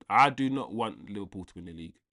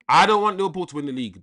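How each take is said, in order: First: "I do not want" spelled out with weight on "not", level and deliberate; stress on NOT. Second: Louder, higher and fast, blurting it out; emphatic outburst. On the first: Streamer repeating to chat with firm stress on "not". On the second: Streamer insisting to chat he won't back Liverpool, loud fast outburst. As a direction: fire it off like a protest you mean. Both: Real, not acted.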